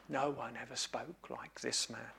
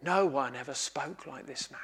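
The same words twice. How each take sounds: First: Very soft, low, awestruck trailing off; near-whispered echo. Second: Soft, low, awed murmur; hushed awe. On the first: Officers repeating their report, barely above a breath. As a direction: let it fade almost to nothing in wonder. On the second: Officers telling the leaders what they heard, hushed and awed. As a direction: say it like you can't believe what you heard. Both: Acted.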